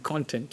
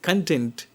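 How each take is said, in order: First: "content" as KON-tent; noun pronunciation of content. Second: "content" as kun-TENT; verb pronunciation of content. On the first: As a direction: say "content" with a full open o, stress on CON. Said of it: "whether it is verb". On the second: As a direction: say "content" with a weak first vowel, stress on TENT. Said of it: "as a verb, something else". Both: Shown as a demonstration.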